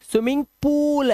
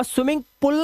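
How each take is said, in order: First: पूल with a long oo; correct long vowel. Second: पूल cut short like "pull"; wrong short vowel. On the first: Teacher correcting the mistake, long vowel in पूल. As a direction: stretch the oo in पूल. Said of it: "swimming पूल है". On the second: Teacher showing the mistake, short vowel in पूल. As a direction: say पूल with a brief u. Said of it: "नहीं है". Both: Shown as a demonstration.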